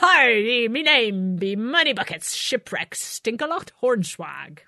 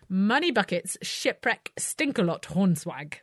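First: It is said in a put-on pirate voice. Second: It is said in her normal voice.

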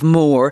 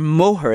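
First: It sounds like 'more', with no H sound. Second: It has two syllables with an H between. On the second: "as you say"

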